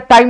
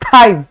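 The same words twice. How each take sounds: First: The t is said without a puff of air. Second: The t is said with a puff of air. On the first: The speaker calls it wrong. "टाइम नहीं" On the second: The speaker calls it right. "H add होगा"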